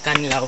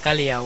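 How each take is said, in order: First: An n sound comes before the l. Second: A y sound follows the l. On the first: This is the proper name of the cave. "lalagyan mo siya ng N, Kanlaw" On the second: It means a peaceful or quiet place. "Kalyaw po is in Spanish word siya"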